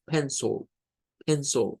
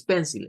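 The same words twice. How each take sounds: First: Pencil said pen-sul with a schwa in the second syllable; teacher models pencil with the second vowel reduced to schwa; correct pencil. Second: Pencil said pen-sil with a clear Spanish I; teacher shows the wrong pencil with a full I sound. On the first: Profesor modela pencil con schwa en la segunda sílaba. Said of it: "es pencil". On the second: Profesor muestra el pencil incorrecto con una I plena. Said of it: "No es pencil". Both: Shown as a demonstration.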